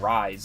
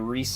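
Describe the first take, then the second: First: It is said as one syllable, like rise. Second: It is said as two syllables, ree-seh. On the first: The speaker calls it wrong. "you don't say rise like a fucking fool" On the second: The speaker calls it right. "Just like you say Rise"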